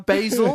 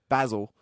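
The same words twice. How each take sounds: First: It is said in an imitated American accent. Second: It is said in the speaker's own Australian accent. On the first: "They're like, yes, uh" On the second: "And I go"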